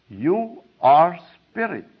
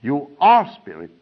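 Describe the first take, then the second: First: YOU, ARE and SPIRIT each set apart slowly; "You are spirit" spaced out slowly, louder; slow pronouncement. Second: ARE punched louder in "You are spirit"; retold insistence, leaning hard on ARE; very emphatic. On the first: Retold or imitated. Retold solemn pronouncement to pupil. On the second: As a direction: hit ARE firmly, as if insisting. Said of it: "in a very emphatic way".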